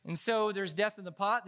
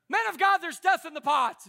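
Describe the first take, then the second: First: Said in the usual way. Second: High, loud hammed-up wail; mock dramatic cry. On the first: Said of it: "Don't do that". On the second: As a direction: overplay the complaint about the food. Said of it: "Don't go".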